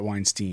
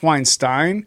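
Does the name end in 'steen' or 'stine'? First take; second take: steen; stine. First: The name ends with a 'steen' sound. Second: The name ends with a 'stine' sound. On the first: This is how the person himself says it. "he pronounced it Weinstein" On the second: This is how it may have been said originally. "maybe it was originally pronounced Weinstein"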